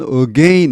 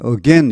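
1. 두 번째 음절은 길게 늘여 발음합니다. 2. 두 번째 음절은 짧게 발음합니다. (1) "이렇게 길게 발음하는 사람은 거의 없습니다" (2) "보통은 짧게 again 이렇게 합니다"

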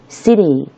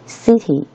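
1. 中间的 t 听起来像轻柔的 d。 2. 中间的 t 发成清晰的 t。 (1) "美式发音读作city" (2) "英式发音呢，它偏向于字正腔圆，发音清晰，它读成city"

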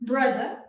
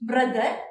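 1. r ശബ്ദത്തിന് നാക്ക് കൂടുതൽ പിന്നിലേക്ക് നീങ്ങുന്നു. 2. r ശബ്ദത്തിന് നാക്ക് പല്ലിൽ തൊടുന്നു. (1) "സെന്റർ പാർട്ടിലോട്ടൊന്നും കൊണ്ടുപോയിട്ട് ടച്ച് ചെയ്താൽ നല്ലൊരു മാറ്റം വരും" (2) "എന്റെ നാക്ക് ടച്ച് ചെയ്യുന്നത് പല്ലിലോട്ടാണ്"

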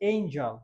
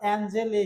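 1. প্রথম স্বরধ্বনিটি গড়িয়ে যাওয়া 'ay'। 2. প্রথম স্বরধ্বনিটি সমতল 'a'। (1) "তো এই যদি হয় এর উচ্চারণ তাহলে এঞ্জল" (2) "চারটি ভুল হয়েছে"

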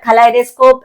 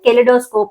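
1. రెండవ అక్షరంలో 'eye' అచ్చు ఉంది. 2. రెండవ అక్షరంలో చిన్న 'ih' అచ్చు ఉంది. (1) "కలైడోస్కోప్ is a correct pronunciation" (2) "కెలిడోస్కోప్ అనేది తప్పు ప్రొనౌన్సియేషన్"

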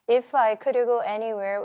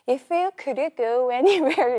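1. 리듬감 없이 평평하게 읽어요. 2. 생동감 있는 리듬과 억양으로 읽어요. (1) "그냥 리딩 읽으라면 어떻게 되는 줄 아시죠?" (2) "그 리듬감에 두세 번 듣고"

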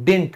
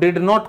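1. यह एक छोटा सिलेबल है, no d। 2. यह दो पूरे अलग शब्दों की तरह बोला जाता है।

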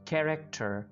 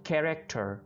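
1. पहला व्यंजन हल्की साँस वाला kh साउंड है। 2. पहला व्यंजन हल्की साँस वाला kh साउंड है।

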